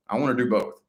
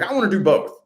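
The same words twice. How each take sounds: First: Said in the usual way. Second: High, loud eager cry. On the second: Retold or imitated. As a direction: blurt it out eagerly.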